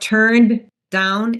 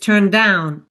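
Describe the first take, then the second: First: The two words are said separately with a break. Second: The shared d sound is said once, words joined. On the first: The speaker calls it wrong. "instead of turned down" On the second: The speaker calls it right. "it's turned down"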